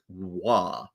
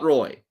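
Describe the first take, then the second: First: The name is said with a French pronunciation. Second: The name is said with an English pronunciation. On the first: The speaker calls it right. "not the French way of saying it, dear youngster. Patrick Waugh" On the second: The speaker calls it wrong. "not Roy"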